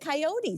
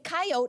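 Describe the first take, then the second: First: It is said the way locals say it. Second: It is said the way Albertans say it.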